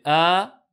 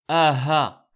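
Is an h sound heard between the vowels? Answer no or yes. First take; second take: no; yes. First: The vowels join with no h sound between them. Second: An h sound is heard between the vowels. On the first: The speaker calls it right. "C'est a, a, a, a" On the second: The speaker calls it wrong. "Attention à ne pas confondre avec aha ... Ça c'est une erreur"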